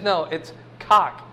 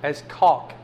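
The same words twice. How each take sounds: First: Cock said with no L, like the bird; wife's cock. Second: Caulk said with a clear L sound. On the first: Retold or imitated. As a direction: drop the L, say cock. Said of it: "I pronounce C A U L K". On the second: Shown as a demonstration. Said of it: "I put an L in it".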